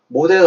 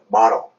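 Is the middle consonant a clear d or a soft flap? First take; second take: clear d; soft flap. First: The middle consonant is a clear d sound. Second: The middle consonant is a soft flap sound. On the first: The speaker calls it wrong. "모델 아닙니다" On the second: The speaker calls it right. "마러입니다"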